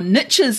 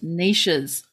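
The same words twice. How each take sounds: First: It is said the American way. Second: It is said the non-American way.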